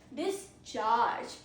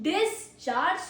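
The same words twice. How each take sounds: First: The stress is on the second syllable. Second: The stress is on the first syllable. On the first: It is a verb: to release or emit. "it has stress on second syllable" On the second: It is a noun: the act of releasing. "First pronunciation is discharge, so it's a noun"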